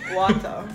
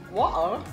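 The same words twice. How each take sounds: First: It is said in a Jamaican accent. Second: It is said in a British accent. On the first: "You gotta say it with a Jamaican accent" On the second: "Say with a British accent. They don't pronounce the T"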